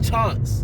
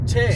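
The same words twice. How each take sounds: First: The vowel is a British broad ah sound. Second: The vowel is an American flat a sound. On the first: The speaker calls it right. "people from Britain... they'll say chance" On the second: The speaker calls it wrong. "what do we say?"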